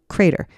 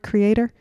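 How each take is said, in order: First: The middle vowel is dropped, giving two syllables. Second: The word is said with three full syllables. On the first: The speaker calls it wrong. "He drops the E. The man says the word crater" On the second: The speaker calls it right. "It's got an E in it"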